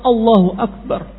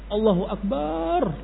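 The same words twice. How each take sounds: First: The vowel in Akbar is kept short. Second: The vowel in Akbar is drawn out long. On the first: The speaker calls it right. "Padahal Allahu Akbar pendek" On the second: The speaker calls it wrong. "lafaz akbarnya dipanjangkan"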